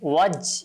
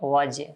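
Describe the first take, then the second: First: The j is cut off without any bounce. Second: The j ends with a slight echoing bounce. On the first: The speaker calls it wrong. "ওয়াজ এভাবে না" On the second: The speaker calls it right. "অর্থাৎ কলকলা করব"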